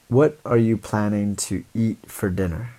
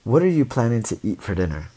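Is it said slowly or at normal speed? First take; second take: slowly; normal speed. First: It is said slowly. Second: It is said at normal speed.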